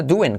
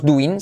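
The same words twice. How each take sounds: First: "doing" said duen, the I as E; "doing" rhymes with duende without the D. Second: Said in the usual way. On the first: Shown as a demonstration. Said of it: "sino doing, como duende". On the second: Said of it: "no decimos doing".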